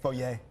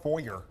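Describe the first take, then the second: First: It is pronounced in the French way. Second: It is pronounced in a non-French, English way. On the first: The speaker calls it right. "It's foyer" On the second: The speaker calls it wrong. "but that's not French. They don't call it foyer"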